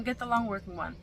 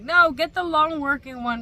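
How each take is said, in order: First: Said in the usual way. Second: Loud, emphatic mock insistence; insistent advice. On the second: Everybody on TikTok urging her, loud insistence. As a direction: call it out like a TikTok crowd pushing. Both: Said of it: "everybody was like".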